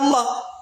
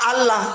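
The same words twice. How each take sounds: First: The word is said with a thick, heavy sound. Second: The word is said with a thin, light sound. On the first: It follows the Arabic reading rule. The speaker calls it right. "Tapi bacanya Allah" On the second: It follows the plain letters only. The speaker calls it wrong. "Memang hurufnya A"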